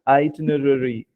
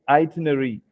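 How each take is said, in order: First: The middle 'ra' syllable is clearly pronounced. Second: The middle 'ra' syllable is dropped. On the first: The speaker calls it right. "there's a little stress on the ro in between, which is itinerary" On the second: The speaker calls it wrong. "most of the time we tend to say itinerary"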